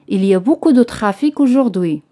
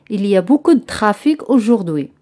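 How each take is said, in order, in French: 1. La voyelle dans 'de' est prononcée. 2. La voyelle dans 'de' n'est pas prononcée.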